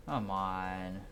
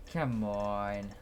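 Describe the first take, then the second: No difference in how they are said.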